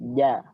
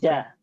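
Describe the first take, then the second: First: The j is made with the tongue middle. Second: The j is made with the tongue tip. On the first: The speaker calls it right. "Makhrajnya dari tengah" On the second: The speaker calls it wrong. "Ujung lidah maka bunyinya menjadi ja"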